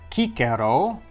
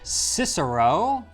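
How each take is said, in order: First: The name is pronounced the Latin way. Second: The name is pronounced the English way. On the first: "In Latin, they called them cicer, and if you add a vowel to the end, you get cicero" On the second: "as us Anglo-Saxons pronounce it"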